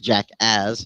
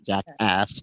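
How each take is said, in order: First: The word ends with a buzzing z sound. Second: The word ends with a hissing s sound. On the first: The speaker calls it right. "J A C K A Z Z. It's Jackass" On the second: The speaker calls it wrong. "not Jackass"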